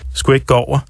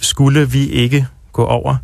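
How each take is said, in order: First: Small words are reduced and run together. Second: Every word is said in full.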